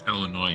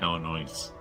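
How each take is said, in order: First: The word ends with no s sound. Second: The word ends with an audible s sound. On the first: The speaker calls it right. "it's Illinois, ... no S" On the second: The speaker calls it wrong. "not Illinois"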